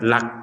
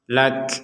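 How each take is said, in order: First: The final k is plain without breath. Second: The final k is released with audible breath. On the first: The speaker calls it wrong. "tidak sekedar lak" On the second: The speaker calls it right. "disertai keluarnya nafas"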